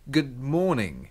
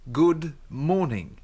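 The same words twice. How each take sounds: First: The phrase is said quickly and casually. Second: The phrase is said slowly and carefully. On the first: "Dalam percakapan sehari-hari, salam tersebut diucapkan" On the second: "Dia akan mengucapkannya dengan perlahan-lahan"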